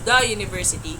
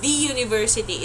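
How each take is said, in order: First: 'The' is pronounced like 'thuh'. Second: 'The' is pronounced like 'thee'. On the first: The speaker calls it right. "it's the university" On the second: The speaker calls it wrong. "Hindi siya the university"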